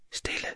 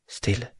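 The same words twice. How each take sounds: First: Breathed out almost silently; whispered. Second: Hushed. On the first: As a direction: let the word die into a whisper. Hushing fades to a breath. (hvisket næsten lydløst) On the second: Hushing in the dark garden. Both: A narrator's reading.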